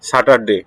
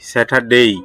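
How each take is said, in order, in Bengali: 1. শেষ সিলেবলটি সাধারণ 'e' স্বরধ্বনি দিয়ে শেষ হয়। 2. শেষ সিলেবলটি 'ei' গ্লাইড দিয়ে শেষ হয়। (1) "আমরা বলতে বলি স্যাটারডে, ঠিক না? কিন্তু" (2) "কারেক্ট সাউন্ড হচ্ছে স্যাটারডেই"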